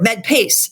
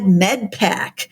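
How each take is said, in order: First: The second part sounds like pace. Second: The second part sounds like pack. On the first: The speaker calls it right. "it's got the E at the end" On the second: The speaker calls it wrong. "I've been calling it wrong"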